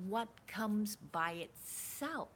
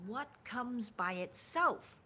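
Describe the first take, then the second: No difference in how they are said.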